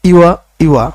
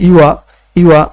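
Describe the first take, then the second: The two takes are said the same way.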